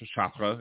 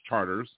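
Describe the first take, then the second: First: The name is said with a French pronunciation. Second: The name is said like the English word charters. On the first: The speaker calls it right. "It should be pronounced Chartres" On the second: The speaker calls it wrong. "It's Charters"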